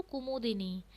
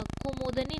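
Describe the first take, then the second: First: कुमुदिनी with a short i after d; correct form kumudini. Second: कुमुदनी with no i after d, said slowly; the wrong कुमुदनी, ku-mud-ni; wrong form kumudni. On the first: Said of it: "अपितु". (शुद्ध रूप कुमुदिनी, दि साफ़) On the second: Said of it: "कुमुदनी नहीं". (गलत रूप कुमुदनी, धीरे) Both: Shown as a demonstration.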